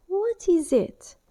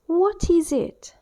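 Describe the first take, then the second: First: "What is it?" slow, higher, with "is" stressed; question to the class. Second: "What is it?" slow, high and loud, "What" stressed; question to the class. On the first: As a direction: ask it slowly, falling, as to beginners. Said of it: "you may start asking the question". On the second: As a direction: ask it loudly and slowly, pointing. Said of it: "pointing to the pen". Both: Shown as a demonstration.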